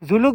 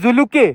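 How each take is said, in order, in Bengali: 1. নামটি শেষ হয়েছে ব্যঞ্জনবর্ণ 'k' দিয়ে। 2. নামটি শেষ হয়েছে একটি শেষ 'e' স্বরবর্ণ দিয়ে। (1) "জুলুক বলবেন না কিন্তু, তাহলে অপমান" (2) "এই জায়গাটার নাম হচ্ছে জুলুকে"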